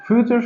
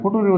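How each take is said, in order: First: It is said as 'fyoo-cher', with a 'ch' sound. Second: It is said as 'foo-too-ree', with a 't' sound. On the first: The speaker calls it right. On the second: The speaker calls it wrong.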